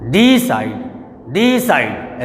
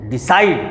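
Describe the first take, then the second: First: decide with DEE long and heavy; stress on first syllable. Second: decide with short DI, strong SIDE; stress on second syllable. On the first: Teacher showing how nobody reads it, first syllable stressed. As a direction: wrongly stretch and push DEE. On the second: Teacher asking students to read it, second syllable stressed. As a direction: glide over DI, lean on SIDE. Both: Shown as a demonstration. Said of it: "ऐसे तो पढ़ते नहीं है".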